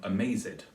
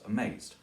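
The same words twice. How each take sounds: First: The word is said with three syllables. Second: The word is said with two syllables. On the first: "he turned it into three syllables" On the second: "usually used it as two syllables"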